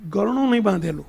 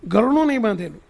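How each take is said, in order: First: નહીં pressed with a falling tune, lower pitch; નહીં stressed, phrase falling low. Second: ગરણું punched louder with a falling tune; ગરણું stressed loudly, phrase falling. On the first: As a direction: lean on નહીં, ગરણું said lightly. Retelling, repeats phrase for emphasis. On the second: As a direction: hit ગરણું hard, let the rest fall. Repeat with louder emphasis. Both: Shown as a demonstration.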